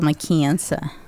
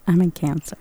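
First: It is said in an East Coast accent. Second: It is said in a plain accent.

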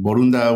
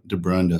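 First: The name is said with Spanish sounds. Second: The name is said with English sounds. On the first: This is the name's original form. "It's Mexican. Barunda would be the appropriate way to say it" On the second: This is the form others usually use. "But I'm totally used to Barunda"

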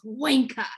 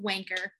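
First: The word is said in a British accent. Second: The word is said without a British accent. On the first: The speaker calls it right. "It's so much better when you've got the British accent because it's wanker" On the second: The speaker calls it wrong. "But I don't have the accent, so I have to settle with wanker"

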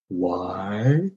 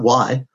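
First: It is said slowly and deliberately. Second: It is said quickly and lightly.

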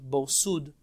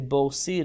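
First: The second word has an 'oo' vowel. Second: The second word has an 'ee' vowel. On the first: The speaker calls it right. "Many of the Rishonim already jump Bor Sud" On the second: The speaker calls it wrong. "many of the books say Bor Sid or Bor Said, but really that's not correct"

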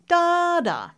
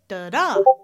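First: The first syllable is stressed. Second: The second syllable is stressed. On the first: "A moment ago, we talked about da-da" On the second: "Now we're going to go da-da"

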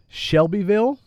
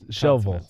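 First: Every syllable of the name is pronounced. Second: The name is squeezed into two short syllables. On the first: This follows the written spelling. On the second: This is how the locals say it.

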